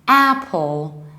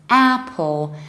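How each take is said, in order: No difference in how they are said.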